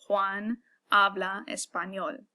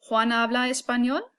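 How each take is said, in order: First: The voice falls at the end like a statement. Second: The voice rises at the end like a question.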